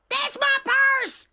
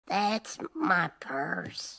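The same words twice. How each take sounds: First: The phrase is shouted loudly. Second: The phrase is said at a quiet, normal level. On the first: The speaker calls it right. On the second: The speaker calls it wrong.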